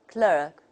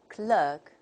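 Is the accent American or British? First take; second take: American; American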